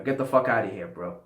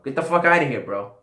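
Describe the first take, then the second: First: Said in the usual way. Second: Higher, louder mock get-out yell. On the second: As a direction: shout it in jest at the viewers. Joking dismissal of non-subscribers.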